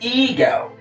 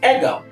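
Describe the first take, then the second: First: The first vowel is a long 'ee' sound. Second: The first vowel is a short 'eh' sound. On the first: The speaker calls it right. "it's a long E sound" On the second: The speaker calls it wrong. "It is not eh"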